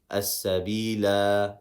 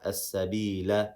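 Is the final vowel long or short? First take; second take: long; short. First: The final vowel is lengthened into a long a. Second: The final vowel is a short a. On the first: The reciter stops at the end of the verse. "if I stop" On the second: The reciter continues to the next verse. "if I continue"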